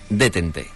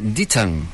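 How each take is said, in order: First: Every letter is sounded out, Spanish-style. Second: It is said with an English-style pronunciation. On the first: This is how it was known back then, read as written. "con la pronunciación pues tal como se escribía" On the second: This is roughly the correct pronunciation. "más o menos bien pronunciado"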